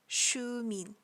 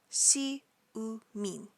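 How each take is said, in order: First: The syllables blend into one smooth word. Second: Each syllable is said separately. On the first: "it's pronounced all together as Shumin" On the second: "Individually, they are Si-u-min"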